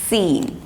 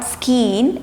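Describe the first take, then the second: First: No k sound is said after the s. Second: A k sound is said after the s. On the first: The speaker calls it right. "it's seen" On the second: The speaker calls it wrong. "not skeen"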